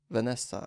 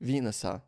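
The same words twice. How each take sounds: First: "Vanessa" with stress on the middle syllable; middle-syllable emphasis on "Vanessa". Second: "Venusa" with stress on the first syllable; first-syllable emphasis on "Venusa"; stress moved forward. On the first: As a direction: say "Vanessa" as vuh-NESS-uh. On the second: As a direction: say "Venusa" as VEE-nuh-suh, falling away softly. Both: Shown as a demonstration. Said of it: "putting the emphasis on a different part".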